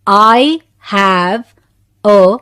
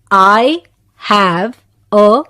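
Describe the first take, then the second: No difference in how they are said.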